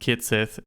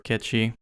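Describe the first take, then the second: First: The name ends with a 'sith' sound. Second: The name ends with a 'chee' sound. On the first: This is the officially announced pronunciation. "It says pronounced Kitsith" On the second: This is a pronunciation fans expected. "instead of uh, Kachi or Ketchi"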